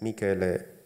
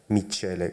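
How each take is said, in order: First: The name is said in the speaker's own way. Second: The name is said the Latin American way. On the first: This is the speaker's real name. The speaker calls it right. "Mi nombre es Michele" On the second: This is how others mistakenly call the speaker. The speaker calls it wrong. "y no Michele, como me llaman en América Latina"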